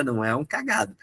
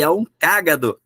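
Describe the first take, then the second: First: "cagado" stressed on GA; stress on middle syllable. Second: "cágado" stressed firmly on CÁ; stress on first syllable. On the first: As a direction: say the rude word, ca-GA-do. (tônica no GA de "cagado") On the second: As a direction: correct it to CÁ-ga-do. (tônica no CÁ de "cágado") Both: Shown as a demonstration. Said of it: "Ó, tem o acento".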